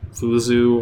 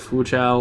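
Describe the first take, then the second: First: The name is said with westernized pronunciation. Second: The name is said with Chinese pronunciation. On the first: "a sort of essentially a westernized version" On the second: "like the, the Chinese pronunciation"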